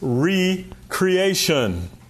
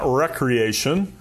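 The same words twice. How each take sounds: First: The first syllable is said as 'ree'. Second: The first syllable is said as 'rek'. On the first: It means being created anew. The speaker calls it right. "It's recreation" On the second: It means leisure or fun. The speaker calls it wrong. "It's not recreation"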